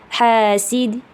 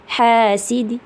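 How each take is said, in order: The two takes are said the same way.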